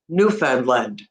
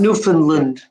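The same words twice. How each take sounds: First: All three parts of the word are clearly heard. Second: The later syllables are compressed and reduced together. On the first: The speaker calls it right. "where you actually hear all three words all together" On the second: The speaker calls it wrong. "where you really compress the Lund and the Fund"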